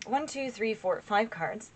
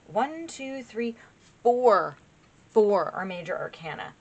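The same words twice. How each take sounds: First: Said in the usual way. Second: Deliberate count landing hard on "four"; emphatic count. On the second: Real, not acted. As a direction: stretch the count and hit "four" loud. Recount stressing four major arcana.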